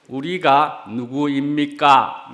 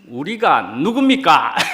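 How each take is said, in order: First: It is a plain, neutral, literal question. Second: It is an emphatic, rhetorical question with strong intonation. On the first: It is an ordinary request for information. The speaker calls it wrong. "이런 억양이 아니고요" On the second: The answer is obvious: we are brothers. The speaker calls it right. "이런 억양이어야 되지 않겠는가"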